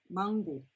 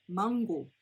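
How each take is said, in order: No difference in how they are said.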